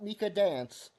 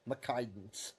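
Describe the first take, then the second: First: The name begins with the sounds 'Mika'. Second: The name begins with the sounds 'McKi'. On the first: This is not how the voice program said it. "Not Mika Dance" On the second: This is how the voice program said it. "that's how it pronounced it"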